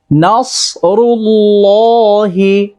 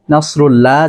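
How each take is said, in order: First: নাসরুল্লাহি with a heavy, thick ص and the final হি sounded; correct pronunciation. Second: নাসরুল্লাহ cut short, without the final হি; the wrong নাসরুল্লাহ ending; wrong pronunciation. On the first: (মোটা সদ দিয়ে নাসরুল্লাহি) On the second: (ভুল উচ্চারণে নাসরুল্লাহ) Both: Shown as a demonstration. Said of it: "নাসরুল্লাহ যেন না হয়".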